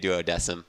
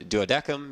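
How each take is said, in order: First: The C is pronounced as a soft sound. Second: The C is pronounced as a hard K sound. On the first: "They all say duodecim" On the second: "it's a hard C or whatever"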